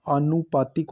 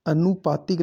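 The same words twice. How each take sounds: First: आनुपातिक with long opening aa; correct form. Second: अनुपातिक with short opening a; wrong form. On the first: Teacher giving the right form: आनुपातिक with long first aa. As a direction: say "aa-nu-paa-tik" for आनुपातिक. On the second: Teacher rejecting the wrong form: अनुपातिक with short first a. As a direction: say "a-nu-paa-tik" for अनुपातिक. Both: Shown as a demonstration. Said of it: "आ आएगा".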